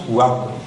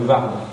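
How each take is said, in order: First: The word begins with a W sound. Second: The word begins with a V sound. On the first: This is how local people say it. The speaker calls it right. "on a conservé le trait germanique du W, qu'on prononce Ward" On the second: This is how outsiders say it. The speaker calls it wrong. "les gens qui voient ça de loin euh, vont dire le Var"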